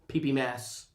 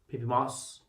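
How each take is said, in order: First: The name's vowel sounds like 'mass'. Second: The name's vowel sounds like 'moss'. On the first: The speaker calls it right. "There we go. I'll get it correct" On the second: The speaker calls it wrong. "I did say P P Moss"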